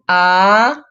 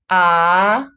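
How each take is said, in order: First: The pitch rises from mid to high. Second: The same.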